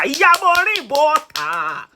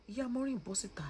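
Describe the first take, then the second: First: High, drawn-out loud call; shouted summons. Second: Soft, half-whispered repeat of the call; hushed summons. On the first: Vlogger calling Maureen's mother out, shouted summons. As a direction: holler it out, stretching the words. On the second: Vlogger asking Maureen's mother to come out, hushed summons. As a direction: drop to a quiet, breath-light plea. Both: Real, not acted.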